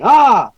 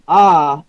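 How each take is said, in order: First: It is said in a hyper way. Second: It is said calmly and low.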